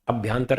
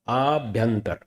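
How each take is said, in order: First: The first vowel is short. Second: The first vowel is long. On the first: The speaker calls it wrong. "अभ्यंतर नहीं" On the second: The speaker calls it right. "आ आभ्यंतर"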